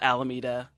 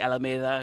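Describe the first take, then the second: First: It is said with an Americanized pronunciation. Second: It is said with a Spanish pronunciation. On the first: "I'm from a town called Alameda" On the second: "which is really Alameda"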